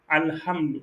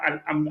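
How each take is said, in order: First: A strong breathy h sound is heard. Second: A plain vowel replaces the h sound. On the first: The speaker calls it right. "mais c'est le Ha" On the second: The speaker calls it wrong. "pas Alhamdu avec le A"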